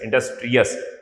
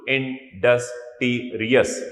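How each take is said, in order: First: Said in the usual way. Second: industrious said slowly, syllable by syllable, in-dus-tri-ous; syllables drawn out. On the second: Shown as a demonstration. Teacher counting syllables for students, slow and drawn out. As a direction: stretch out every syllable of industrious. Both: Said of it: "four syllable था industrious".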